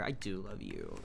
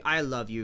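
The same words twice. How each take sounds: First: "do" leaned on in a softer, lower "I do love you"; tender mock insistence on "do"; soft stress on do. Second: Said in the usual way. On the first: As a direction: press the word "do" gently and drop your voice.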